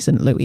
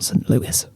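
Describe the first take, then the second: First: Louis is pronounced the French way. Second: Louis is pronounced the American way. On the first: The speaker calls it right. "that's a French name ... It's definitely Saint Louis" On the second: The speaker calls it wrong. "you say it wrong ... not Saint Louis"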